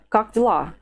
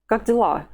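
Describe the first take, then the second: Both takes have the same delivery.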